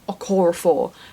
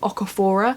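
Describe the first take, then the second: First: The syllables run o-ko-ra-for. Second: The syllables run o-ka-fo-ra. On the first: The speaker calls it right. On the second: The speaker calls it wrong. "I kept saying Okafora"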